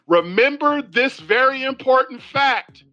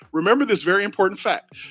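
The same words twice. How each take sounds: First: It is said slowly. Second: It is said at normal speed.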